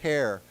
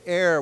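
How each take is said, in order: First: The word begins with an H sound. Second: The word begins with a vowel sound. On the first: The speaker calls it wrong. "we don't pronounce it hair" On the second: The speaker calls it right. "It's pronounced without the H"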